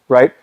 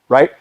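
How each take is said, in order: The two takes are said the same way.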